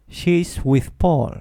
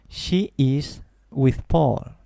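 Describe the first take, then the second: First: She's is said as one quick syllable. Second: She is is said as two full words. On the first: The speaker calls it right. "Lo digo más rápido" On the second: The speaker calls it wrong. "no digo yo She is with Paul"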